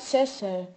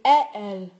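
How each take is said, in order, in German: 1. Die s-Laute werden im Wort deutlich ausgesprochen. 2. Die s-Laute werden im Wort weggelassen. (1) "statt Sessel" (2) "Ich sagte zum Beispiel Ä-L statt Sessel"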